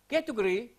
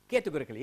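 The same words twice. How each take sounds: First: "categorically" with syllables swallowed, like "ke-tu-gri"; struggling pronunciation. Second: "categorically" with all its syllables, "ke-tu-go-rik-li"; right pronunciation. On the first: Teacher attempting a hard word, "categorically" mispronounced and cut short. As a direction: stumble over "categorically", losing its middle syllables. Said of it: "I just have difficulty in pronouncing".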